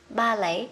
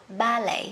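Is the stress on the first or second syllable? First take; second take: first; first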